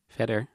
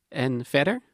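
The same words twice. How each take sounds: First: Said in the usual way. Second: "verder" rising as a prompting question. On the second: Acted. Girlfriend prompting him with a rising "verder". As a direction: ask "En verder?" with "verder" lifted. Girlfriend asks what else.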